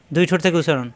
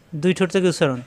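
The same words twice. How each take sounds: The two takes are said the same way.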